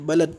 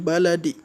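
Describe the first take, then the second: First: The final consonant stops flat without a bounce. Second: The final consonant ends with a slight bounce. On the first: The speaker calls it wrong. "On ne dira pas" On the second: The speaker calls it right. "on dira"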